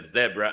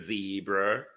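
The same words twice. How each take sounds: First: Zebra is said the British way. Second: Zebra is said the American way.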